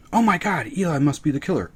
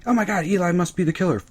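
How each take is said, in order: First: High fake gasp; mock audience. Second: High, fast fake gasp; rushed mock audience. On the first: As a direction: parody the predictable guess. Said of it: "episode seven". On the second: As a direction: gabble the tired guess. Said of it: "Episode nine or ten".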